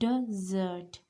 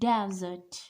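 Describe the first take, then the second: First: The stress is on the last syllable. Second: The stress is on the first syllable. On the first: The speaker calls it right. "The stress is on last syllable" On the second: The speaker calls it wrong. "This is not desert"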